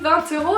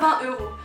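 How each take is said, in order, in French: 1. C'est dit avec la prononciation alsacienne. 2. C'est dit avec la prononciation non alsacienne. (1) "Chez nous en Alsace, on dit" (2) "et pas"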